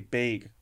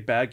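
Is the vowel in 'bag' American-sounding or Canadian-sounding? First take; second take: Canadian; American. First: The word is said with a Canadian vowel. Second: The word is said with an American vowel. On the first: "You say bag" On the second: "I say bag"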